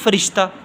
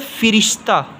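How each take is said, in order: First: The first vowel is an a sound. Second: The first vowel is an i sound. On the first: The speaker calls it wrong. "हम पढ़ते हैं फ़रिश्ता" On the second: The speaker calls it right. "ज़ेर वाला फ़िरिश्ता सही है"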